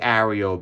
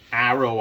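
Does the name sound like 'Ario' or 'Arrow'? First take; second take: Ario; Arrow. First: The name is said with an extra middle vowel. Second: The name is said like the word arrow. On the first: This is the speaker's own preferred version. "I like Ario better. Sounds more aerodynamic" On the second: This is the standard version matching the spelling. "the proper pronunciation... It's Captain Arrow"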